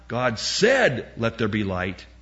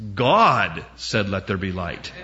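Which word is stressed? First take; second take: said; God. First: The stress is on the word said. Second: The stress is on the word God. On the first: The act of speaking is what matters. The speaker calls it wrong. "They're emphasizing the wrong word" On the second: Who speaks is what matters. The speaker calls it right. "It's not the saying, it's who said it"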